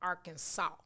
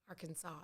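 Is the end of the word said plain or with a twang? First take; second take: twangy; plain. First: The end of the word has a twang. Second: The end of the word is said plainly. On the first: The speaker calls it right. "you have to say it like Arkansas ... with some some some some twang at the end" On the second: The speaker calls it wrong. "You you can't say it like Arkansas"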